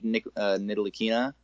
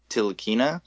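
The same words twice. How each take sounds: First: The opening N sound is pronounced. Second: The opening N sound is silent. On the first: "I was saying it Frank Ntilikina" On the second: "apparently the N is silent. So apparently just Frank Ntilikina"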